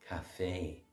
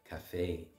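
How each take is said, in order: First: The stress is on the second syllable. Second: The stress is on the second syllable.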